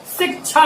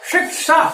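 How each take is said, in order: First: शिक्षा said as "sik-chha"; शिक्षा with aspirated ch instead of sh; wrong pronunciation. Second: शिक्षा said as "shik-sha", higher pitched; शिक्षा with retroflex sh after k; correct pronunciation. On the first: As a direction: use a छ sound for the क्ष in शिक्षा. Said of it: "जबकि ऐसा उच्चारण गलत है". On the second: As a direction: give the क्ष in शिक्षा a clear k-sh. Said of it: "इसका सही उच्चारण इस प्रकार होना चाहिए". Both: Shown as a demonstration.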